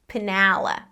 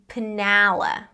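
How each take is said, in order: Both takes have the same delivery.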